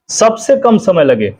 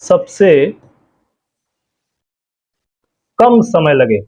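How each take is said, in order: First: Said in the usual way. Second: Phrase broken up by long pauses for writing; slow dictation. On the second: Shown as a demonstration. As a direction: read it out slowly for notes. (धीरे-धीरे बोलकर लिखवाना) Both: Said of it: "इसमें बता दे रहे हैं आपको".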